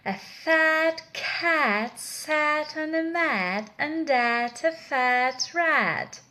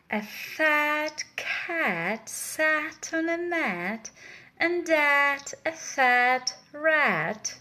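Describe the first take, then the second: First: The sentence is said at a faster pace. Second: The sentence is said at a slower pace.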